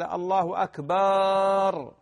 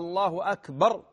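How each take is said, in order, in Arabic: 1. الحركة الأخيرة في "akbar" طويلة. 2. الحركة الأخيرة في "akbar" قصيرة. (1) "هذا غلط وأكثر المؤذنين على هذا" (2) "هكذا"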